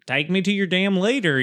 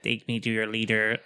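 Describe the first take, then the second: First: It is said in a casual Southern drawl. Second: It is said in a flat robotic voice.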